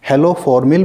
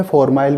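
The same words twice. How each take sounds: First: Haloformyl ending in a short "mil"; -mil pronunciation. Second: Formyl ending like "mile"; -mile pronunciation. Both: Shown as a demonstration. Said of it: "भी बोलते हैं".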